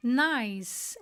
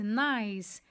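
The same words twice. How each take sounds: First: "Nice" said slowly as "nais" with one clear vowel glide; nice pronunciation. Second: "nice" said lower and shorter as "nais"; nice pronunciation. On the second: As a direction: repeat "nice" as a quick low "nais". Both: Shown as a demonstration. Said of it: "olha a pronúncia".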